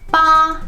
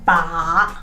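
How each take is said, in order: First: The pitch stays high and level. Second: The pitch dips low, then rises. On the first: "the first tone ba, ba is flat" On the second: "the third one is ba"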